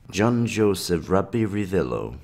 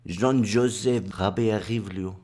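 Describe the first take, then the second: First: The name is said without a put-on accent. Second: The name is said with a French accent.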